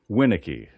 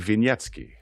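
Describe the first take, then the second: First: The surname is said with English sounds. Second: The surname is said with Polish sounds.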